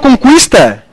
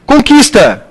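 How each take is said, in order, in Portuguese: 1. O 'u' depois do 'q' é pronunciado. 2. O 'u' depois do 'q' é mudo.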